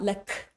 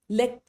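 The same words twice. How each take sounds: First: Extra air or a vowel follows the final consonant. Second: The final consonant stops cleanly with nothing added. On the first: The speaker calls it wrong. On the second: The speaker calls it right. "We do not add extra air, we do not add extra vowels"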